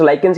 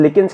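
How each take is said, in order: First: The first syllable sounds like 'lie' with a k. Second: The first syllable sounds like 'lick' with a k. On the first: "I guess लाइकेंस is the correct pronunciation" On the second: "कुछ लिकेंस कहते हैं"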